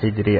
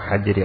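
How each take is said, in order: First: The first vowel is i. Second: The first vowel is a. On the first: "harakat ha ini bisa dibaca tiga-tiganya" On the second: "harakat ha ini bisa dibaca tiga-tiganya"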